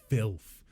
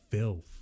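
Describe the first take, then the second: The two takes are said the same way.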